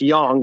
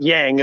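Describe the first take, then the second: First: The word is said with a Chinese-style pronunciation. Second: The word is said with an American pronunciation. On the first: The speaker calls it right. "It's yang. The Chinese say yin and yang" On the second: The speaker calls it wrong. "Not yang, as bloody Americans say"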